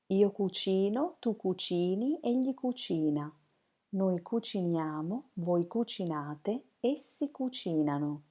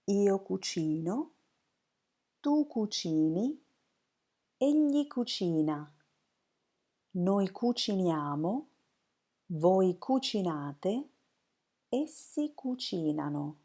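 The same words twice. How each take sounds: First: It is said smoothly, as one flow. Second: It is said slowly, form by form.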